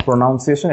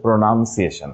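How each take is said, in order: First: Slow "pronunciation" as pro-NOUN-ciation; mispronounced with "noun". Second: "pronunciation" as pro-NUN-ciation; short vowel, no "ow", in "pronunciation"; pronounced with "nun". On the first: Teacher rejecting a mistake, "pronunciation" with noun inside. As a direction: show the wrong "ow" vowel in "pronunciation". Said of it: "it is not pronunciation". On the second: Teacher correcting class, "pronunciation" with nun in the middle. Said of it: "not noun". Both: Shown as a demonstration.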